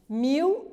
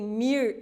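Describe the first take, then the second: First: The word ends with an L sound. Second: The word ends with an R sound. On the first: "Rotacização do L" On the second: "Rotacização do L"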